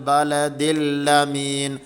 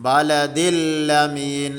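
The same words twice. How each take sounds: No difference in how they are said.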